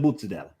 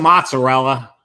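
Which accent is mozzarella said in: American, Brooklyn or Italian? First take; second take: Brooklyn; American. First: It is said in a Brooklyn accent. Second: It is said in a plain American accent. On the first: "Brooklyn ordering"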